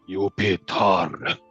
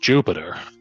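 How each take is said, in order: First: The name begins with a Y sound. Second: The name begins with a J sound. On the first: The speaker calls it right. "It's uh it's Y" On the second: The speaker calls it wrong. "they said it was a J sound"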